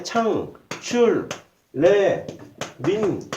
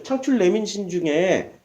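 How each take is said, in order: First: 창출 레민신 very slowly, each syllable separate. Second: Said in the usual way. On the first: Shown as a demonstration. Preacher spelling out five book initials for listeners, syllable by syllable. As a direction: break 창출 레민신 into single, spaced-out syllables.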